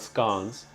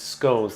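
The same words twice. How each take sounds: First: It is pronounced unlike the American way. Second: It is pronounced the way Americans say it. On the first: This is not how people say it here. The speaker calls it wrong. "not scones" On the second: This is how people say it here. The speaker calls it right. "here they pronounce it the same as the Americans. It's scones"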